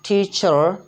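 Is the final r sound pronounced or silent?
pronounced. The final r is lightly pronounced. "American accent है ना, उसमें वो कहें आर को वो थोड़ा सा प्रोनाउंस करते भी हैं"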